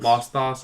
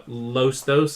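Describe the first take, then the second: First: "Los Thos" with AW in both words; open AW pronunciation. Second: "Los Thos" with long O in both words; long O pronunciation. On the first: Host trying another version of the name, "Los Thos" with open AW vowels. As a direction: say "Los Thos" like "loss thoss". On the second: Host recalling an uncertain name, "Los Thos" with long O sounds. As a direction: say "Los Thos" like "lohs thohs", drawn out. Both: Shown as a demonstration. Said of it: "I can't remember".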